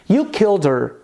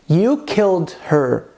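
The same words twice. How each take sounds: First: The words run together in connected speech. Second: The words are said separately and clearly. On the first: "empregando esse fenômeno chamado connected speech" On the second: "Em inglês fica assim"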